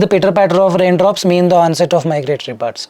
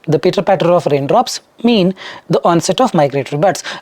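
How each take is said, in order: First: It flows smoothly without pauses in the middle. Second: It pauses after raindrops and after mean. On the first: The speaker calls it right. "will work" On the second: The speaker calls it wrong. "After raindrops, there was a pause. After mean, there was a pause"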